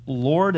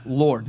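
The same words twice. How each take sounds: First: "Lord" as a question, rising; "Lord" said questioningly, unsure who it is; inquisitive. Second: "Lord" said firmly, with weight; "Lord" declared, without a questioning rise; emphatic. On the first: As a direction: ask "Lord" with an upward tune. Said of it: "The first one was inquisitive". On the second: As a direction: stress "Lord" as a certain address. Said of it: "Now it's emphatic". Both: Acted.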